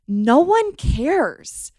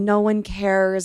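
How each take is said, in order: First: It sounds upbeat and carefree. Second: It sounds gloomy and hopeless. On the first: You are free to live as you want. "you flip the exact same sentence on its head with a different attitude" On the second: Nothing in life matters, which feels dark. "when I was going through my depression, that was my thought"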